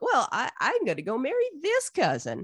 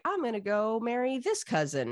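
First: Higher, hammed-up retort; mock-competitive comeback leaning hard on "this"; one-upping Esau. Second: Lightly acted announcement, raised pitch; breezy Jacob. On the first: Older brother outdoing his sibling, mock-petulant retort. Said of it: "And Esau's like". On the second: Younger brother declaring his marriage plan, lightly acted. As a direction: announce it simply, stressing "this". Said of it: "And Jacob's like".

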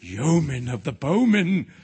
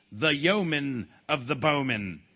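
First: Slow, louder chorus of lords; echoing crowd. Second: Slow, grand king's call; ringing royal summons. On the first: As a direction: echo it like a whole awed court. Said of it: "echoed all the lords and noblemen". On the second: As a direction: announce the title with slow majesty. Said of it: "The king's voice rang out". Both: A narrator's reading.

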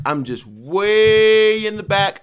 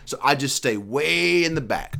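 First: WAY stretched high and loud, slow; "way" drawn out high and loud; way in the back, pulled long and up; stressing way back. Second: Said in the usual way. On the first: Retold or imitated.

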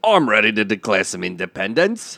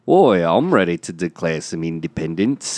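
First: Put-on English accent that slides toward Australian; attempted English accent. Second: Put-on Liverpool [name] accent; [name]. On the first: Actor answers the rallying call, Australian-sounding English accent. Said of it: "because you sound Australian". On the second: Actor rejoins the reenactment, Liverpool accent. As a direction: slip into a Scouse Beatle voice. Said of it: "Oh, that's [name]".

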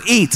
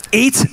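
First: Mock slogan again. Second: Mock slogan. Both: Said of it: "That's at everyone's house now".

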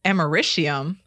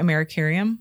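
First: Americium said with a clear sh sound; careful pronunciation. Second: Says Americurium, with an extra -cur- in the middle; unsure pronunciation. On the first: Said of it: "It's a definite sh noise". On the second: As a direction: Americurium pronounced uh-MER-uh-KYUR-ee-um. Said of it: "Is that how you say it?". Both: Shown as a demonstration.

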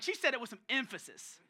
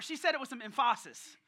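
First: Said in the usual way. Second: Louder, with emphasis said as em-FAH-sis; emphasis playfully said as em-FAH-sis; joking mispronunciation. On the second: Shown as a demonstration. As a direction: put the stress on the middle of emphasis, em-FAH-sis. Replayed with emphasis shifted, as joke.

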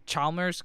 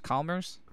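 First: Chalmers said with a ch as in chair, CHAL-merz; soft ch Chalmers. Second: Chalmers said with a hard k, KAL-merz, rising at the end. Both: Shown as a demonstration. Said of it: "I'm gonna say Chalmers".

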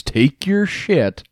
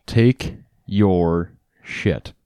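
First: "your" drawn out slow and high; stress on take your shit. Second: "take your shit" stretched slow, each word punched; emphasized take your shit. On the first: Gamer asking the host to stress it, slowly stressed. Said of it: "Emphasize, emphasize that again". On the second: Host repeats it on request, slowly emphasized. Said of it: "Emphasize it". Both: Shown as a demonstration.

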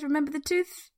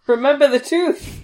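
First: Tooth stressed with a rising tune; retelling the villain's parting words. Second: Remember the tooth, louder and rising; a hammed-up sinister warning, higher; playfully menacing villain quote; ominous villain line. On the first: Retold or imitated. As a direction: lean on the word tooth, ominous. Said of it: "I love the emphasis on the tooth".

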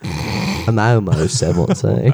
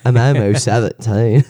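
First: Slow, dragged-out put-on voice; awful character voice. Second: Deliberately bad put-on voice; awful character voice. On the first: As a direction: stretch it out badly. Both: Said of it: "It sounds awful".

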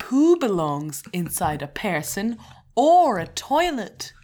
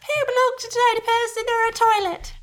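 First: Slow, clear teacher-style dictation; slow and deliberate. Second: Put-on high, loud childlike repeat; mock child voice. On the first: Shown as a demonstration. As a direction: say it slowly like a teacher. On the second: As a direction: parrot it back like a small child. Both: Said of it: "repeat after me".

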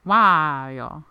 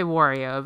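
First: "Wario" drawn out with a long "wah"; "Wario" as WAAH-ee-oh; brand-style pronunciation. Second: "Wario" with an "or" vowel, WOR-ee-oh; habitual pronunciation. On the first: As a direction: stretch the first vowel of "Wario" to "waaah". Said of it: "more in line with his brand". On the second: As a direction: say "Wario" starting like "war". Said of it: "but I always say Wario". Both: Shown as a demonstration.

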